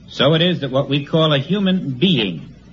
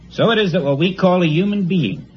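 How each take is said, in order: First: It is read slowly and deliberately. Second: It is read at a normal pace.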